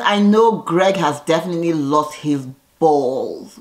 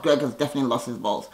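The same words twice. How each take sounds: First: Said in the usual way. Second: Lower, softer and quick; quiet fast aside. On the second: Real, not acted. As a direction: mutter it again as a knowing aside. Repeats the verdict twice.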